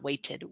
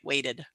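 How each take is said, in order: First: The word is said without an American accent. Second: The word is said with an American accent. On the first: The speaker calls it wrong. "not waited" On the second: The speaker calls it right. "I should pronounce in American English, right?"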